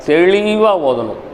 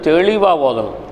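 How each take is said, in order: Both takes have the same delivery.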